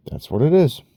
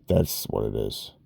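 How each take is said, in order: First: That's what it is higher and louder, punched; emphatic exclaimed version; high loud take. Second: Lower, softer take of That's what it is; muttered low version. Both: Shown as a demonstration.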